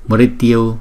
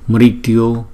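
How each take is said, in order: No difference in how they are said.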